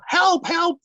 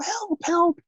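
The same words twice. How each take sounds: First: It is said loudly. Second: It is said softly.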